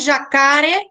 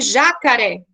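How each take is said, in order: First: The stress is on the middle syllable. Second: The stress is on the first syllable. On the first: "aí o K seria mais forte" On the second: "o já seria mais forte, seria uma proparoxítona"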